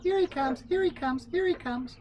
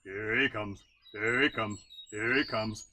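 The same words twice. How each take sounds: First: Much higher, tiny peeping voices; little frogs peeping. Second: Slightly lower, croaking lookout cry; bullfrog lookout call. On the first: Little frogs along the river warning each other, high peeps. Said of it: "would peep". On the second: Bullfrog warning the frogs that Brother Coon is coming, low call. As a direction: call it out like a big old bullfrog. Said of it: "the bullfrog would call out". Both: Acted.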